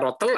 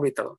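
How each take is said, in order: First: The first vowel is an o sound. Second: The first vowel is an i sound. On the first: "bisa dibaca rotel" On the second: "atau ritel. Dua-duanya boleh"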